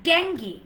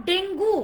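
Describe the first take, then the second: First: "ডেঙ্গি" as DENG-ghee, falling; "ডেঙ্গি" stressed on the first syllable; silent-u pronunciation. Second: "ডেঙ্গু" ending in a long "goo"; "ডেঙ্গু" with the u sounded; wrong pronunciation. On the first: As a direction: say ডেঙ্গি with an "ee" ending. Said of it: "ইউ লেটারকে silent করে দেন". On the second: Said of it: "It's not ডেঙ্গু". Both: Shown as a demonstration.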